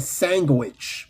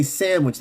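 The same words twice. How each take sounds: First: "sandwich" as SANG-gwitch, slowly. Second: Said in the usual way. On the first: Retold or imitated. Imitating Guyanese James, sandwich as SANG-gwitch. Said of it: "with a G". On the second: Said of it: "said sandwich with a G".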